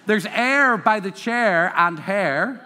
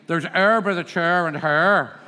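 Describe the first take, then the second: First: "air", "chair", "hair" with open "eh"; standard English vowels. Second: "air", "chair", "hair" as "er", "chur", "her"; Northern Irish vowels. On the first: Teacher quotes the audience's way, open-vowelled "air, chair, hair". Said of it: "you would say". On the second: Teacher imitates a local, Northern Irish "er, chur, her". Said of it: "Somebody from Northern Ireland would say". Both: Shown as a demonstration.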